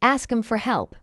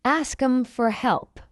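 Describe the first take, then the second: First: Quick, linked "Ask 'em for help"; faster. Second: Slow, measured "Ask 'em for help"; slow model. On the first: Teacher tells learners now faster, fast. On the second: Teacher models it before asking for faster, slowly. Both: Shown as a demonstration.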